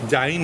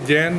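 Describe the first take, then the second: First: The vowel glides from 'ah' to 'ee'. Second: The vowel is a single sound, like 'jain'. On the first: The speaker calls it right. "जाइन है" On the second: The speaker calls it wrong. "ये जैन नहीं है"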